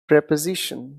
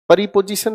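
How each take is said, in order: First: The word begins with a tight cluster, 'pre'. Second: The word begins with an extra vowel, 'pari'. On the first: The speaker calls it right. "Basically इसे हम पढ़ते हैं प्रेपोजिशन" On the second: The speaker calls it wrong. "परिपोजिशन नहीं"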